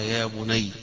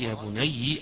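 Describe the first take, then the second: First: The final ya is silent with no vowel. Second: The final ya carries a vowel. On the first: This is the reading of one particular reciter. "بالتسكين فيها" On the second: This is the reading of the remaining reciters. "قراءة باقي القراء"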